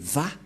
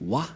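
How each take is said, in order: First: The syllable begins with a V sound. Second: The syllable begins with a W sound. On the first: The speaker calls it right. "mais Va pour les juifs. Les juifs le prononcent Va" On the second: This is how people commonly say it. The speaker calls it wrong. "les gens disent Wa. Mais en fait, ce n'est pas Wa la vraie prononciation"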